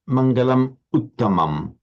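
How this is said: A slight pause separates the two words. The speaker calls it wrong. "a very slight pause"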